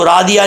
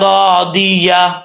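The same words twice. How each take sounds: First: The ya and final h sounds are swallowed. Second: The ya and final h sounds are clear. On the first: The speaker calls it wrong. "इसको रादिया नहीं पढ़ना" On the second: The speaker calls it right. "वाजे करके पढ़ना है"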